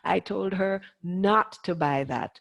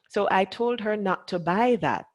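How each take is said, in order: First: The word not carries the main stress. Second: The word not is left unstressed. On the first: The speaker calls it right. "what is important about that sentence, which is the not" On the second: The speaker calls it wrong. "is what people say, instead of what is important"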